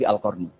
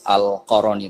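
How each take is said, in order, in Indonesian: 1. Tidak ada vokal yang terdengar di antara r dan n. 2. Ada vokal yang terdengar di antara r dan n. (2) "sekarang jangan baca"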